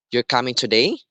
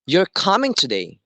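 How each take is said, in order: First: "You're coming today" asked, pitch rising on "today"; rising question intonation. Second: "You're coming today" as a statement, falling at the end; declarative intonation. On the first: Teacher showing an interrogative sentence, rising intonation on "today". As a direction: turn it into a question with a lift on "today". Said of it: "Rising intonation at the end of a sentence". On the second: Teacher showing intonation to the class, declarative fall on "today". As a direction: stress "coming", then let "today" drop. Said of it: "and declarative sentence".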